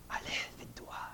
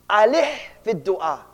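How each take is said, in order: First: Hushed, voiceless whisper; retold phrase in a breath-only whisper. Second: Said in the usual way. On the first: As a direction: whisper it like a teacher's secret advice. Retells the sheikh's one phrase.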